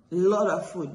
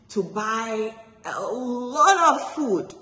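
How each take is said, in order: First: Said in the usual way. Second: "lot" stretched slow and higher; drawn-out emphasis. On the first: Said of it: "repeated plainly". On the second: A narrator's reading. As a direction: linger on "lot" to show how much. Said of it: "repetition for emphasis".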